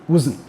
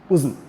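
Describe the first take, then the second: The two takes are said the same way.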